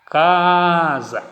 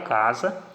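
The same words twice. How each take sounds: First: Casa called loudly with a long first CA; calling out. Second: Said in the usual way. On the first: Shown as a demonstration. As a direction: hold the first syllable of Casa like a call. (chamando Casa alto, com a primeira sílaba alongada) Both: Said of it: "que demorou mais tempo sendo pronunciada".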